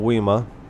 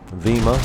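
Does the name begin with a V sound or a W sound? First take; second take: W; V. First: The name begins with a W sound. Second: The name begins with a V sound. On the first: The speaker calls it wrong. "I'm pretty sure you don't pronounce it with a W" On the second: The speaker calls it right. "I think that's how you pronounce it"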